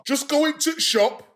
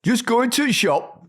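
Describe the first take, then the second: First: Slow Yorkshire, going to shop; Yorkshire accent. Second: Higher, punchy Yorkshire copy; aggressive Yorkshire. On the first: Shown as a demonstration. [name] gives them a Yorkshire line, slow Yorkshire accent. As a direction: drop the the, broad Yorkshire. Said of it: "Yorkshire, here we go". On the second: Retold or imitated. Host copies [name]'s Yorkshire too hard, aggressive Yorkshire. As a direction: bark it in mock Yorkshire. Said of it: "Why so aggressive?".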